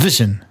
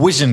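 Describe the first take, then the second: First: The word begins with a v sound. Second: The word begins with a w sound. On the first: The speaker calls it right. "Und nicht Vision" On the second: The speaker calls it wrong. "ich habe immer Vision gesagt"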